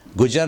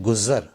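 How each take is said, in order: First: 'गुजर' with a j in the middle; wrong pronunciation. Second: 'गुज़र' with a buzzing z; correct pronunciation. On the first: Teacher shows what not to say, mispronounced. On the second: Teacher gives the proper word, correctly pronounced. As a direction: say 'गुज़र' as guzar. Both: Shown as a demonstration. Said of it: "गुजर ना बोलें".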